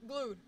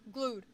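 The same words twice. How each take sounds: The two takes are said the same way.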